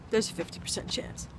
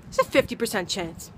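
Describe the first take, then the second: First: Whisper. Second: Said in the usual way. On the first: Real, not acted. Repeated whispered.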